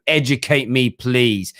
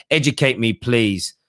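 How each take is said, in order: Both takes have the same delivery.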